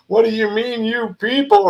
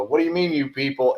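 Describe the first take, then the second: First: High, indignant mock outrage; sharp high-pitched offended challenge; offended retort. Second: Said in the usual way. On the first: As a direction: play it up like you're insulted. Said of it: "I'm getting all offended by it". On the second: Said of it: "And they laugh".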